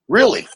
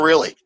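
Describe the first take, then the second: First: Louder rising disbelieving really?; mock skeptical really, rising at the end; doubtful really. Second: Really said flat and falling, no question; confident reassuring Really, falling; firm really. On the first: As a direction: ask really? as if you can't believe it. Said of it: "they just look at me going". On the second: Retold or imitated. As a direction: answer Really. as a flat, settled fact. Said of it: "I go".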